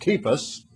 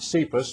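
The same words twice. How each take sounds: First: The name begins with a hard K sound. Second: The name begins with a soft S sound. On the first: The speaker calls it right. "it should be pronounced like a K" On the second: The speaker calls it wrong. "Not Cephas"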